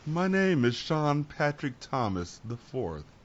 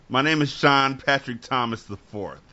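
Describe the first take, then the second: First: It is said in an exaggerated, posh put-on voice. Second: It is said in a plain, ordinary voice. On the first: The speaker calls it right. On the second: The speaker calls it wrong.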